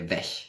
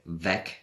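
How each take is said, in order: First: The word ends with a soft ch sound. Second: The word ends with a hard g sound.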